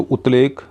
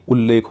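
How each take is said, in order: First: उतलेख said with a plain t before l, the rejected form; उतलेख pronounced as written, t then l; wrong split form. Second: उल्लेख with the t merged into a doubled, held l; correct joined form. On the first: (उतलेख में त और ल अलग-अलग बोलें) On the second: (उल्लेख में लंबा दोहरा ल बोलें) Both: Shown as a demonstration. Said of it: "तो उतलेख तो होगा नहीं".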